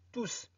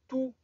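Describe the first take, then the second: First: The word ends with an audible s sound. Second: The word ends without an s sound. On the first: It is the indefinite pronoun. The speaker calls it wrong. "ne dites pas tous" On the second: It is the adjective before a noun. The speaker calls it right. "Ne prononcez pas S"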